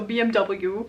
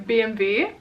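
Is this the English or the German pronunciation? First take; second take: English; German. First: The letters are said the English way. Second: The letters are said the German way.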